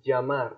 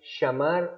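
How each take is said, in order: First: The first sound is like the s in measure. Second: The first sound is like English sh. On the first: "או כמו ג'" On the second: "צלילים שישמעו לנו כמו שין"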